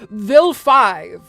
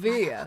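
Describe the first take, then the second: First: The second syllable sounds like 'five'. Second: The second syllable sounds like 'vi'. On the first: This is how English voice actors might say it. "all the English V As just go like" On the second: This is how the name is meant to be said. "that's who you're thinking of"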